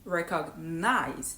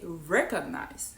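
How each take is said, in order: First: "recognize" drawn out slowly with weight on the final NIZE; non-native stress. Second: "recognize" with REC stressed and the rest lighter; native stress. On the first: Retelling a teacher's correction of the word, mistaken end stress. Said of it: "they don't say". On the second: Retelling a teacher's correction of the word, first-syllable stress. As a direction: hit the start of "recognize". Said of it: "they say recognize". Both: Shown as a demonstration.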